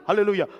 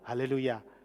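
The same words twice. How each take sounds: First: The word is said very quickly. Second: The word is said at a normal speed.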